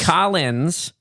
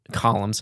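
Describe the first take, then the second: First: "Collins" said kahl-inz, with an n; "Collins" as the name, ending in an n sound; corrected name. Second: "Columns" said as kahl-umz, with an m; "Columns" as the word columns, not the name; mispronounced name. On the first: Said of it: "like the name, Collins". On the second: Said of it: "Collins, like the name". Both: Real, not acted.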